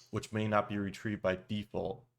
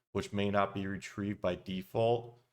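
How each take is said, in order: No difference in how they are said.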